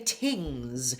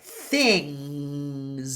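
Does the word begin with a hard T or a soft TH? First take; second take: hard T; soft TH. First: The word starts with a hard T sound. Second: The word starts with a breathy TH sound. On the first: The speaker calls it wrong. "Sometimes I'll hear students say tings" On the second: The speaker calls it right. "Put the tongue between your teeth. And lots of air"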